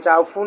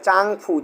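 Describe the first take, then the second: First: The first syllable ends in an 'o' sound. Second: The first syllable ends in an 'ng' sound. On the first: The speaker calls it wrong. "চাউফু না।" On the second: The speaker calls it right. "এটা হবে চাংফু।"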